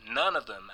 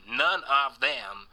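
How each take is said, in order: First: Said in the usual way. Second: "none" drawn out and hit harder; slow, deliberate stress on "none of them"; emphatic NONE. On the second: Real, not acted. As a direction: lean hard on every word of "none of them". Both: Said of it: "and I mean none of them".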